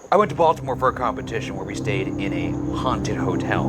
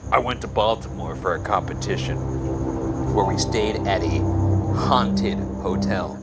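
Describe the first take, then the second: First: His own voice says 'haunted' plainly. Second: A put-on character voice says 'haunted' mockingly.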